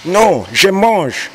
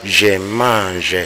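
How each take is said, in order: First: "je mange" drawn out slowly, pitched much higher; "je mange" slow and high, every sound given its tone; careful tonal pronunciation. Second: Said in the usual way. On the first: Shown as a demonstration. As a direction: sing out "je mange" slowly with full tone. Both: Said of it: "ne faut pas chercher tout simplement à dire".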